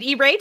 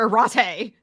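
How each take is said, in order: First: The word begins with an 'ee' sound. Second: The word begins with an 'eye' sound. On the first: "Is it E-rate or Irate?" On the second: "I'm pronouncing it Irate"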